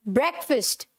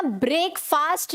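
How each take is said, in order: First: ब्रेकफास्ट as "BREK-fust"; correct pronunciation. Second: ब्रेकफास्ट as "brake-faast"; wrong pronunciation. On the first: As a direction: keep ब्रेकफास्ट short in both vowels. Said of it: "क्या बोलेंगे?". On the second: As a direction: draw both vowels of ब्रेकफास्ट long. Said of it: "तो हमें क्या नहीं बोलना?". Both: Shown as a demonstration.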